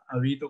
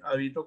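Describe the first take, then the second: First: The stress is on the second syllable. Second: The stress is on the first syllable. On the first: It is a verb meaning to live somewhere. "habito como palabra grave, más bien es un verbo" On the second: It is a noun naming a garment. "hábito como esdrújula es un sustantivo"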